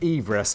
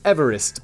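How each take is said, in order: First: It has the pronunciation of the surveyor's surname. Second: It has the usual pronunciation of the mountain. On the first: The speaker calls it right. "it should actually be pronounced Everest to match the surname" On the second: The speaker calls it wrong. "[name] has just wrongly pronounced Everest"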